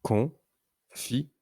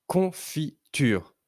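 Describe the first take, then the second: First: "Confiture" very slowly, a pause after each syllable. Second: "confiture" slowly, lightly split but close together; measured syllables. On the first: Teacher counting syllables for a pupil, "Confiture" syllable by syllable. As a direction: split "Confiture" into con, fi, ture. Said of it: "Combien de syllabes entends-tu". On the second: Teacher naming the pictured word, "confiture" in measured syllables. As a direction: say "confiture" carefully as con-fi-ture with brief breaks. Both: Shown as a demonstration.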